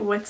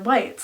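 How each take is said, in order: First: The vowel is short, rhyming with bits. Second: The vowel is long, rhyming with bites. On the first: "I always pronounced it wits" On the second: "it might be whites"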